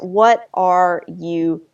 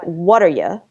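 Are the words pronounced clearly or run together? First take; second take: clearly; run together. First: Each word is pronounced clearly and separately. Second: The words are reduced and run together. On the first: "what if we articulate it?" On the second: "in American, the American accent, that "what are you" becomes something like"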